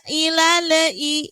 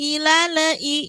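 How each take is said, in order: No difference in how they are said.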